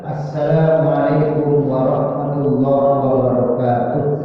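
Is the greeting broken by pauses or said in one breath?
one breath. The greeting is said without any pause. The speaker calls it right. "Seharusnya tuntaskan"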